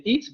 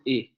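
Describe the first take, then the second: First: "it" with a clear final T; "it" ending on a released T; standard it. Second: "i" with the T dropped; glottalized it. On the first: Teacher demonstrating the standard "it". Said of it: "En lugar de decir". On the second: Teacher showing the glottalized "it". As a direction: say "i", cutting off the final T. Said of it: "van a decir i". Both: Shown as a demonstration.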